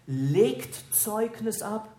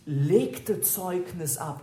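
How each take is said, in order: First: Slow, weighted "legt Zeugnis ab", leaning on "legt"; correct present tense. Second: Slow, weighted "legte Zeugnis ab", leaning on "legte"; wrong past tense. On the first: Preacher gives the corrected present tense, slow stressed "legt". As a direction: give "legt Zeugnis ab" as the right present form, drawing out "legt". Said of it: "sondern legt Zeugnis ab". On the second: Preacher corrects the translation, slow stressed "legte". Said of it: "Johannes nicht legte Zeugnis ab". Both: Shown as a demonstration.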